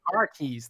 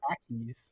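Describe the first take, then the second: First: The r is sounded, in a plain American accent. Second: The r is dropped, like a Boston accent. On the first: "That's how I'd say it in American" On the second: "say car keys in a Boston accent, it's khakis"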